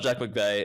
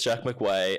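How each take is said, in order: First: The surname's second syllable starts with a V sound. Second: The surname's second syllable starts with a W sound. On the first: This is the name's usual pronunciation. "it's not Jack McVeigh" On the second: This is how the local announcers say the name. "it's Jack McWay"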